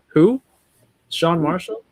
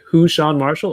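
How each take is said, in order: First: It is said as a rising question. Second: It is said as one joined name. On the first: Someone is asking who this person is. "or was it a question?" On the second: Who is part of the name. "was it hyphenated"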